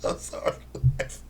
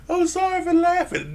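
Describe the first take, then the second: First: Breathless apology through giggles; laughing apology. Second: Much higher, squeaky mock-sorry apology. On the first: Apologising to viewers while still laughing, breathless and giggly. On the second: Apologising again to viewers in a silly high squeak. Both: Real, not acted.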